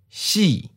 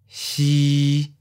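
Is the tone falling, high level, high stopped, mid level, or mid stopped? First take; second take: falling; mid level. First: The pitch starts high and falls. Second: The pitch stays level at mid height. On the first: "High falling. Second tone" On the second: "Mid flat. Seventh tone"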